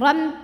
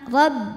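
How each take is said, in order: First: It ends with sound going through the nose. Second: It ends with the lips pressed, no nasal sound. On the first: The speaker calls it wrong. "nggak ada ya" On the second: The speaker calls it right. "jangan ada suara masuk hidung"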